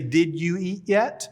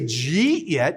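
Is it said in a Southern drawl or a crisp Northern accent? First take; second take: crisp Northern; Southern drawl. First: It is said crisply and clearly, Northern style. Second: It is said in a drawn-out Southern drawl.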